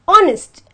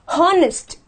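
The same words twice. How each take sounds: First: The word starts with no h sound. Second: The word starts with an h sound. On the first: The speaker calls it right. "I have to say honest" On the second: The speaker calls it wrong. "and not honest"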